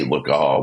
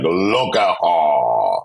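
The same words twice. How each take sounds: First: Said in the usual way. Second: Slow, drawn-out sassy queen voice; sassy drag queen. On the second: Retold or imitated. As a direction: stretch it out with shade. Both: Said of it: "I sort of took on that voice".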